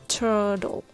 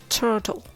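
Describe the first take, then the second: Both takes have the same delivery.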